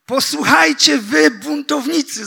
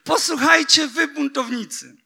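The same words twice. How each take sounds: First: High, loud, rebuking cry to the rebels; shouted. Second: High cry that fades by the last word; shouted again. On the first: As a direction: call them out at full voice. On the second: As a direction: hurl it out, then let it drop. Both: Acted. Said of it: "zawołał".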